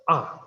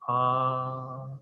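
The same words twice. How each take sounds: First: The pitch falls sharply from high to low. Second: The pitch stays high and level. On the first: "the fourth tone is the falling tone, totally falling" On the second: "high level tone"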